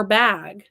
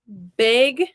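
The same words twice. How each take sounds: First: "bag," with short a as in cat; standard bag. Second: "bag" sounding like beg; Wisconsin bag. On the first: Counselor gives her own version, "bag," with open a. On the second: Counselor shows Wisconsin speech, "bag" like beg. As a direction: raise the vowel of "bag" to beg. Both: Shown as a demonstration. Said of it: "They say rag for rag".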